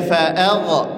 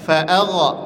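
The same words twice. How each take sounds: The two takes are said the same way.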